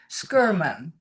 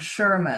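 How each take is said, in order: First: The name begins with an 'sk' sound. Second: The name begins with a 'sh' sound. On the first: The speaker calls it right. "so you would pronounce it" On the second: The speaker calls it wrong. "rather than Sherman"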